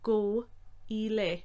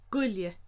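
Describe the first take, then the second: First: The phrase is said slowly and fully. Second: The phrase is said quickly and run together. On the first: "slowly said" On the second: "Quickly said as"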